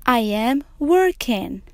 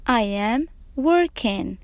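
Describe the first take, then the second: No difference in how they are said.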